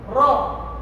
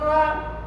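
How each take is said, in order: First: The syllable is said heavy with a rounded vowel. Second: The syllable is said light with an open vowel. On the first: The speaker calls it right. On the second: The speaker calls it wrong. "bukan ra"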